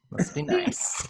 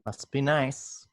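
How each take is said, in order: First: Much higher, breathy falsetto mock of "nice". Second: Said in the usual way. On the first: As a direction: squeak it out in a silly high voice. Says the line twice, second mocking.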